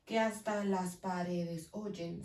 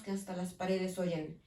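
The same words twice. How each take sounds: First: "Que hasta las paredes oyen" slow and low, "Que hasta" joined; vowels run together. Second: Said in the usual way. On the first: Shown as a demonstration. Teacher shows the sinalefa, "Que hasta" slowly run together. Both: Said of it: "se pronuncian juntas".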